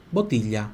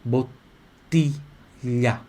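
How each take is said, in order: First: Said in the usual way. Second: Very slowly stretch out "Botilha", the ti pure and the glia as lhi; a teacher drawing out "Botilha" syllable by syllable; careful pronunciation. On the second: Shown as a demonstration. Teacher shows students how to say Botilha, very slow and careful. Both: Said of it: "atenção na pronúncia aqui de botilha".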